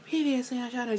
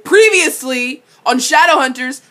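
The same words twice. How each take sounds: First: It is said softly and daintily. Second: It is said hard and forcefully.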